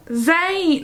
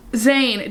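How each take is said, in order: First: Higher, falling British-accented name; badly attempted British accent on Zayn. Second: Said in the usual way. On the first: Shown as a demonstration. Reader attempts Zayn's dialogue, bad British accent. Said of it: "try to do a British accent". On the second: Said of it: "we're skipping the British accent".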